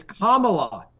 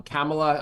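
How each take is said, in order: First: "Kamala" with the first a as in father, KAH-muh-luh, said slowly; "Kamala" with a long ah, KAH-ma-la; corrected pronunciation. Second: "Kamala" with the first a as in cat, KAM-uh-luh; "Kamala" with a flat cat vowel in the first syllable; wrong pronunciation. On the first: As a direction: stress "Kamala" on KAH with an open ah. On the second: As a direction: say "Kamala" the Trump way, KAM like camel. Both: Retold or imitated. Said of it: "You pronounce it like Trump does".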